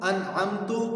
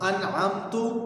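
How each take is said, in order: First: The last syllable ends with a 'u' vowel. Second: The same.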